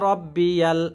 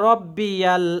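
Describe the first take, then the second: No difference in how they are said.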